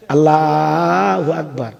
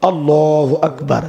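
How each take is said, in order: First: আল্লাহু with a long, open "aa"; old elders' azan. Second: আল্লাহু with a rounded, heavy "aw"; present-day azan. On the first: Retold or imitated. Preacher imitating elders' old call to prayer, open drawn-out আল্লাহু. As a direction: stretch আল্লাহু slowly with a thin, open a. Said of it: "আগেকার মুরব্বীরা আজান দিত". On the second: Shown as a demonstration. Preacher showing how it is called now, rounded আল্লাহু. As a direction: round the vowels of আল্লাহু into a full o. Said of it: "আর এখন কি কয়?".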